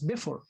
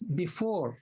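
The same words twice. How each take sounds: First: The stress is on the first syllable. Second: The stress is on the second syllable. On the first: The speaker calls it wrong. "If you put stress on the first syllable, you will pronounce it as before" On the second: The speaker calls it right. "So you have to pronounce it as before"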